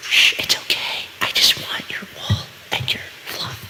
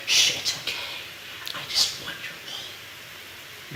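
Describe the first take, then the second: First: Sweet nothings. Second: Faint unvoiced whisper to the sheep. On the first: Pretend. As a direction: whisper lovingly to calm the beast. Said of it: "Whisper sweet nothings". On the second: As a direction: hush it gently, barely voiced. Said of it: "Which the microphone did probably not pick up".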